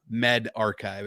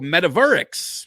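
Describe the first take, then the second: First: The word ends with a full 'archive' sound. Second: The word ends with a short 'rix' sound. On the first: The speaker calls it right. "is how that word is pronounced" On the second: The speaker calls it wrong. "is actually not how it's enunciated"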